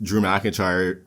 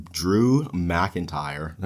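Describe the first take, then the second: First: Said in the usual way. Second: Very slow, picking out each syllable of Drew McIntyre; carefully slowed name after a stumble. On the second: Shown as a demonstration. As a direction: spell out "Drew McIntyre" slowly so you don't trip. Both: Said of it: "easy for me to say".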